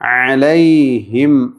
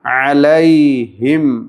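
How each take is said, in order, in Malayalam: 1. നടുവിലെ സ്വരം വ്യക്തമായ 'ai' ഗ്ലൈഡ് ആണ്. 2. നടുവിലെ സ്വരം വ്യക്തമായ 'ai' ഗ്ലൈഡ് ആണ്.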